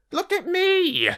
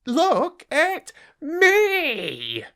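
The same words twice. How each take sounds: First: High rat voice crying out look at me; a show-off rat demanding attention; boastful rat. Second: Very slow, high rat voice stretching look at me; a preening rat milking every word; drawn-out boastful rat. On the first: Rat shows off. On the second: Rat shows off again. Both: Acted.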